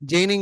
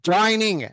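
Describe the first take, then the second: First: The first vowel sounds like 'ay' in 'day'. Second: The first vowel sounds like 'oy' in 'boy'. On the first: The speaker calls it wrong. "జైనింగ్ కాదు" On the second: The speaker calls it right.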